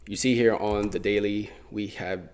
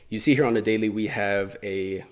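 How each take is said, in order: First: Stretched-out, deliberate phrasing; slow, drawn-out lead-in to a point; oddly drawn-out delivery. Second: Said in the usual way. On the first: Real, not acted. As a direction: linger oddly on the words. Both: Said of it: "why did I say it like that".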